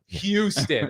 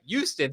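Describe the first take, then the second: First: The word begins with an h sound. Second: The word begins without an h sound. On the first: The speaker calls it wrong. "I don't like that" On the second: The speaker calls it right. "Houston sounds better. ... it's Y O U S T O N"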